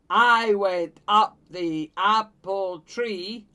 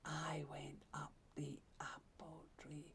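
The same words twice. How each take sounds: First: It is said in a loud voice. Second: It is said in a quiet voice. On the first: "He's going to say it like this" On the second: "Sometimes the lion can speak in a very quiet voice"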